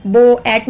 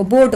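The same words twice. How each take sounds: First: बो एट said as two separate parts, बो then एट; wrong split reading. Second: बोट said as one smooth syllable; correct blended reading. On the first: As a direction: break बोट wrongly into बो and एट. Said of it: "नहीं बोलते हम उसको". (बोट को गलत तरीके से बो एट तोड़कर बोलना) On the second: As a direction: blend बोट into a single word, no break. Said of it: "बोट बोलते हैं". (बोट को एक साथ जोड़कर सही बोलना) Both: Shown as a demonstration.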